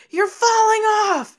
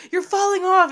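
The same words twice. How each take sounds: First: High, loud panicked cry; girls yelling warning. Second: High, loud panicked cry; the girls shrieking at him from the carriage; girls yelling warning. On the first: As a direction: shout it like the girls on the runaway carriage. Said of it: "the girls are like". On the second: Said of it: "But they're like". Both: Retold or imitated.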